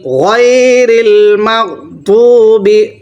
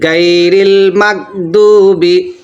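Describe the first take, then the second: First: The first word starts with a throaty gh sound. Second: The first word starts with a hard g sound. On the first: The speaker calls it right. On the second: The speaker calls it wrong.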